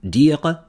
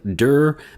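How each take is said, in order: First: The name is said with a French pronunciation. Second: The name is read as spelled in English. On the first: "but in French it'd be like Claude Dire" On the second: "it looks like Dir"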